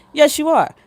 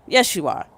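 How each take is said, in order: First: Higher and louder, insisting YES; emphatic insistence. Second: Said in the usual way. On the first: Shown as a demonstration. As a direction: shout it back with conviction.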